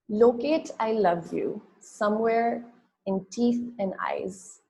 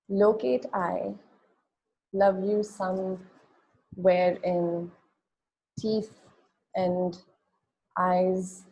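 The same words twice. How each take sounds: First: It runs on with no pause after 'I'. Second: There is a pause right after 'I'. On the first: "reading the poem without the line breaks" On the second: "read it with the line breaks"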